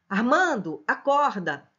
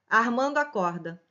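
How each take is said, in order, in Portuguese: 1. Há uma pausa curta depois do nome. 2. O nome emenda direto no verbo. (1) "Armando, vírgula, acorda. Vocativo" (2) "Se eu retirasse a vírgula, Armando acorda. É assim que eu vou ler"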